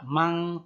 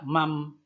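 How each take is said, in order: First: The word ends with an ng sound. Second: The word ends with an m sound. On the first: "Tidak mang" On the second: "tidak mam"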